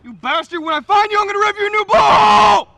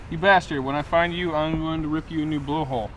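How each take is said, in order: First: It is yelled angrily, sounding really upset. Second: It is said flatly, without much feeling.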